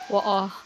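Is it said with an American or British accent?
British. It is said in a British accent.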